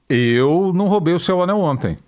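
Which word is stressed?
eu. The word eu carries the stress. "O Anselmo eu não sei"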